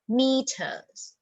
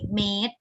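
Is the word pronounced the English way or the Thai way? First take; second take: English; Thai. First: It is said with an English pronunciation. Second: It is said with a Thai pronunciation. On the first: The speaker calls it right. "in English meters" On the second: The speaker calls it wrong. "in Thai made"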